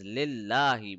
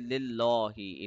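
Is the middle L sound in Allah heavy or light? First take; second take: light; heavy. First: The middle L is thin and light. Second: The middle L is thick and heavy. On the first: The speaker calls it right. "It is lillahi. Because of the kasra, the middle lam of Allah will be a light letter" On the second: The speaker calls it wrong. "we will not say lillahi"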